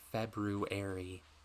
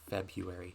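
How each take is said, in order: First: The first r sound is clearly pronounced. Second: The first r sound is dropped. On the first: "I'm trying to pronounce it how it is spelled" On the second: "Most people say"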